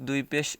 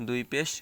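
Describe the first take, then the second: No difference in how they are said.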